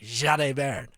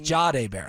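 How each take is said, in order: First: The first name starts with a buzzing Z sound. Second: The first name starts with a plain J sound. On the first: "with a zesty Z" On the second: "I thought it was Jade Barron"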